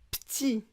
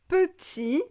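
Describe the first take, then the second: First: The first vowel is dropped, sounding like p'tit. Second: Both syllables are pronounced in full. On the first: "on va prononcer petit" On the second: "on raccourcit beaucoup les mots"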